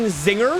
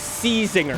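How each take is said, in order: First: The name starts with a plain Z sound. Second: The name starts with a spoken C sound. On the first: "why the C is silent in the name" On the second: "I will forever be calling this the C-Zinger"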